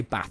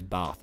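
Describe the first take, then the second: First: Said in the usual way. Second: "Bath" with a long "ah" vowel; Tubbo. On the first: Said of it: "when you ask him to say bath". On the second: Retold or imitated. Friend mimicking how he says it, "Bath" drawn toward "barf". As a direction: say "Bath" almost as "barf", low and soft. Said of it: "he goes".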